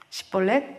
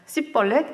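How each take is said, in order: First: It begins with an sh sound. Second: It begins with a plain s sound. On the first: This is the test word as it should be said. The speaker calls it right. "너 나 따라해봐" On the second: The speaker belongs to the tribe being hunted. The speaker calls it wrong. "에브라임 사람들은 시볼렛 발음을 못합니다"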